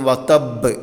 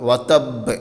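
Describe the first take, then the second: Both takes have the same delivery.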